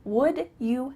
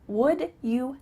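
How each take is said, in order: First: The word 'you' is said in full. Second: The word 'you' is said in full.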